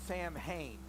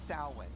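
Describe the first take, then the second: First: It is said as it is spelled. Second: It is said unlike its spelling. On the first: The speaker calls it wrong. "No, that's not how you say it" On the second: The speaker calls it right. "This is called Samhain"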